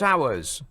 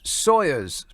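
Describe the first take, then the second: First: The first syllable sounds like 'sour'. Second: The first syllable sounds like 'saw'. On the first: The speaker calls it wrong. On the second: The speaker calls it right.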